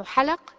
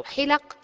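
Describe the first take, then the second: First: حلق said ḥalaq, both vowels open a; حلق pronounced ḥalaq with two fathas. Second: حلق said ḥilaq, kasra on the first letter; حلق pronounced ḥilaq with kasra. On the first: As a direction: say حلق as ḥa-laq with fatha on ha and lam. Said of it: "بفتحتين". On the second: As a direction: say حلق as ḥi-laq with i on ha. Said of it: "بالكسر". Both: Shown as a demonstration.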